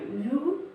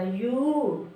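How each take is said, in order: First: यू with a brief vowel, pitch rising; short vowel. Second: यू held long with a falling end; long vowel. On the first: Teacher showing the small u matra on य, short यू. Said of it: "छोटा ओ की मात्रा". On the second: Teacher showing the big u matra on य, long यू. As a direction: draw out the vowel of यू. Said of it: "बड़ा ओ की मात्रा". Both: Shown as a demonstration.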